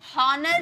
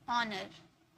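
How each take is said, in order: First: The word starts with an audible h sound. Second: The word starts with a vowel, no h. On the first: The speaker calls it wrong. "हॉनर नहीं बोले" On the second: The speaker calls it right. "ये silent रहता है"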